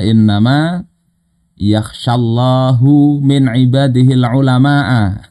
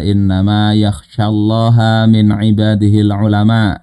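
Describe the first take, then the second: First: The word Allah ends with a 'u' vowel. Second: The word Allah ends with an 'a' vowel. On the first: God is the one who fears the scholars. "Allah sebagai fa'il" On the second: The scholars are the ones who fear God. "Ulama itu adalah hamba Allah yang paling takut kepada Allah Ta'ala"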